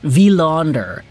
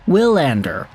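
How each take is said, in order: First: The name begins with a V sound. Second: The name begins with a W sound. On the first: The speaker calls it right. "it's a V" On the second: The speaker calls it wrong. "Not a W"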